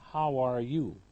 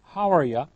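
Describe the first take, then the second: First: Each word is said fully and clearly. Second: The words are shortened and run together. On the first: "in full form and formal English" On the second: "in number one you heard"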